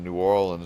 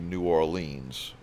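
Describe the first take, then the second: First: It is pronounced the way locals say it. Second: It is pronounced the way newcomers say it. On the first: The speaker calls it right. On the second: The speaker calls it wrong.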